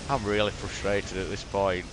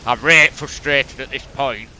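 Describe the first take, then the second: First: Said in the usual way. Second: Broad Yorkshire, "right" for really, louder; full Yorkshire. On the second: Shown as a demonstration. Gamer repeating his frustration in full Yorkshire, louder. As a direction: lean hard into the Yorkshire dialect. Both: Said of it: "Sorry, full Yorkshire".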